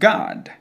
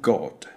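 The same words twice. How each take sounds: First: The vowel is an open, A-like sound. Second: The vowel is a closed O sound. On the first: "that O is not pronounced as a closed sound. It is more open" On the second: "But in British English, they do pronounce an O"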